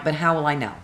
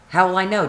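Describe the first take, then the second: First: Said in the usual way. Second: Higher and louder repeat of the question; exasperated repeat. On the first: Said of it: "repeated question, second louder". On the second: Retold or imitated. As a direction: push the question harder. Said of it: "repeated louder".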